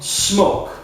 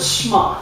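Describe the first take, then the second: First: The vowel is long, like in 'smoke'. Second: The vowel is short, like in 'smock'. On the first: "I prefer to pronounce it Smoke" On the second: "Or is it Smock?"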